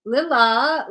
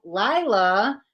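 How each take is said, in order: First: "Lila" said LIL-uh; tentative "Lila", first syllable rhyming with will; short-i "Lila". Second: "Lila" said LIE-luh; questioning "Lila", first syllable rhyming with eye, rising at the end; long-i "Lila". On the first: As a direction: try "Lila" with a short i, as in lily. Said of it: "I can't pronounce names". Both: Shown as a demonstration.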